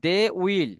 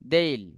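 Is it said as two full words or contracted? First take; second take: full; contracted. First: Two separate full words are said. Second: The words merge into one short syllable. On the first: "যখন আমরা বলবো দে উইল" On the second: "দে উইলটাকে আপনি কি বলতে পারেন দেইল"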